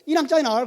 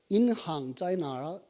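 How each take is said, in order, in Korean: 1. 이 구절은 빠르게 말하고 다 붙여서 말해요. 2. 이 구절은 천천히 그리고 또렷하게 말해요.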